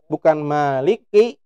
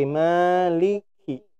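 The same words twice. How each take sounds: First: "maliki" slow with a weak kaf; wrong kaf. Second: "maliki" slow with a doubled, aspirated kaf; correct breathy kaf. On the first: Teacher shows the wrong kaf to students. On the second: Teacher shows the correct kaf to students. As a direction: push air through the kaf in "maliki". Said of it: "tapi maliki". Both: Shown as a demonstration.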